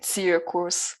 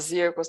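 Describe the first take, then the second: First: The word begins with a ts sound. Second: The word begins with a z sound. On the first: The speaker calls it right. "tem que falar igual a gente fala quando fala a palavra pizza" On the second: The speaker calls it wrong. "não pode falar Zirkus"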